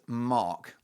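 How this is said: It is said in a British accent. "it's Mark, like that"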